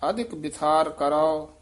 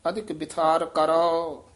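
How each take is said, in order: No difference in how they are said.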